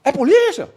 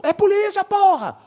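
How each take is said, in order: First: High-pitched called-out question; acted questioning call. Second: Very high, held-out mock yell; acted insistent call. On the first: Uniformed officer asks the plainclothes man, high questioning call. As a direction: imitate checking from a distance, voice raised high. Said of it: "Aí ele". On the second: Plainclothes officer answers the uniformed one, very high insistent yell. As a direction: imitate calling back emphatically from afar.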